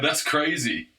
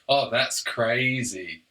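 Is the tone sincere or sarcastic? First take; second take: sincere; sarcastic. First: It is said plainly, without sarcasm. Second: It is said with heavy, obvious sarcasm.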